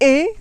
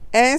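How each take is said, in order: First: The vowel is said with the mouth closed. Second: The vowel is said with the mouth open. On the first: "Et et, c'est fermé" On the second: "Est, c'est ouvert"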